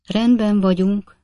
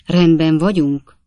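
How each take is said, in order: First: Feeble reply, higher and slow; weak voice. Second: Said in the usual way. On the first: A narrator's reading. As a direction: answer weakly, unsure of the saddle. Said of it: "felelte Winkle úr gyenge hangon". (gyenge, bizonytalan hangon) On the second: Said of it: "kérdezte Pickwick úr titkos balsejtelemmel".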